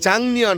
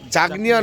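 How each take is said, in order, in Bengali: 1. প্রথম সিলেবলটি NG ধ্বনিতে শেষ হয়। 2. প্রথম সিলেবলটি K ধ্বনিতে শেষ হয়। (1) "জাংনিয়ন হবে" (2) "জাগনিয়ন হবে না"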